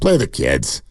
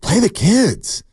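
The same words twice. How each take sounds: First: The tone sounds resigned and dismissive. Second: The tone sounds eager and enthusiastic. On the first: The speaker has given up on the current group. "here's the other tone. That means you're defeatist, you've given up" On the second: The speaker is excited about the young players. "that says to me, you're just excited about these kids"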